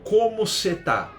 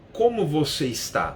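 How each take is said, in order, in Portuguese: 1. As palavras são reduzidas para cê e tá. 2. Cada palavra é pronunciada completa e com cuidado. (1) "o você vira ser, o está vira tá" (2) "Eu não falo para as pessoas"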